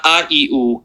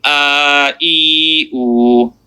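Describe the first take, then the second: First: "a, e, oo" short, one beat apiece; short vowels. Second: "a, e, oo" each drawn out long and level; stretched vowels. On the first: Teacher reviewing the first accents, short "a, e, oo". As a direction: rattle off "a, e, oo" with brief vowels. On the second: Teacher reviewing the long accents, stretched "a, e, oo". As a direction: sustain every vowel in "a, e, oo". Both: Shown as a demonstration. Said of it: "How do you stretch those long".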